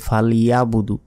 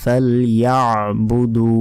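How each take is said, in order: First: ফালইয়াবুদু quick, with no ain; short plain "falyabudu" for ফালইয়াবুদু; wrong pronunciation. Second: ফালইয়াবুদু slow, throaty ain after ya, long final oo; careful "fal-ya'-budoo" for ফালইয়াবুদু; correct pronunciation. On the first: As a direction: run ফালইয়াবুদু together, unstretched. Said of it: "ভুল উচ্চারণ করি". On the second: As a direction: squeeze the ain, stretch the end of ফালইয়াবুদু. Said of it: "এভাবে উচ্চারণ করতে হবে". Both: Shown as a demonstration.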